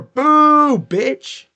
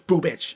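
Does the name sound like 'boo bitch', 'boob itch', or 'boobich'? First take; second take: boo bitch; boobich. First: The name splits before the b sound. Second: The name is said smoothly without a split. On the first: The speaker calls it wrong. "or boo bitch" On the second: The speaker calls it right. "but it's boobich"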